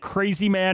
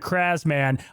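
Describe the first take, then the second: First: The first part sounds like the word 'crazy'. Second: The first part rhymes with the word 'jazz'. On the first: The speaker calls it wrong. "like Crazy Man" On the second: The speaker calls it right. "it is Kraz Man"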